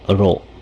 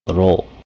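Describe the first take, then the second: First: The O vowel is cut off short. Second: The O vowel is cut off short.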